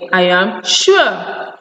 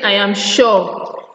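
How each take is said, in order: First: Sure is said with the ue vowel. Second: Sure is said with a vowel other than ue. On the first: The speaker calls it right. "You say what? I am sure" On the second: The speaker calls it wrong. "You don't say I am sure"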